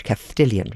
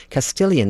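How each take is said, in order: First: "Castilian" with a th sound for the s; Castilian lisp. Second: Said in the usual way. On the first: Retold or imitated. Showing how her Spanish boyfriend spoke, "Castilian" with a lisped th. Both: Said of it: "where he would say Andalucia".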